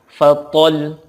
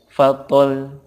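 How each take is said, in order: First: The ending is pressed with rising force. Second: The ending is said flat without pressure. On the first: The final letter is doubled. The speaker calls it right. "suaranya meningkat" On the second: The final letter seems not doubled. The speaker calls it wrong. "fatol datar aja nggak boleh"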